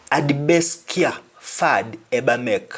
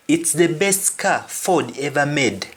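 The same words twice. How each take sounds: First: "care" as "kya", "ever" as "eba"; "fad" with open A, "make" as "mek"; Jamaican pronunciation. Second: Plain "car", "Ford" with O; English pronunciation. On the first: Teacher reading the last Jamaican example, patois vowels. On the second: Teacher translating the last example, English sounds. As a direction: say "ever" with a V, "made" with a D. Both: Shown as a demonstration. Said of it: "Last example".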